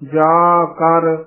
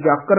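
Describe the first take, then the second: First: It is said as two separate parts. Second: It is said joined as one word. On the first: The speaker calls it right. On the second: The speaker calls it wrong.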